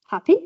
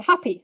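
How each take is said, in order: First: HAPPY as a question, sharply rising and louder; questioning rise. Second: Said in the usual way. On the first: Shown as a demonstration. Lecturer showing question intonation, HAPPY with a rise. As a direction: swing HAPPY up high at the end. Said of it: "with a rise". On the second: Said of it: "it's happy".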